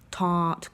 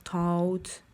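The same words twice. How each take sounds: First: The vowel stays open and steady like ah. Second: The vowel closes into an oo glide. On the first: The speaker calls it right. "vraiment un ah" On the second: The speaker calls it wrong. "ils vous finissent avec un ou"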